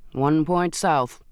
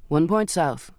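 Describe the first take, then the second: First: Slowly echoes the captain's order back; slow helmsman echoing the order. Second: Said in the usual way. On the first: A narrator's reading. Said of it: "Foley echoed". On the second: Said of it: "he said".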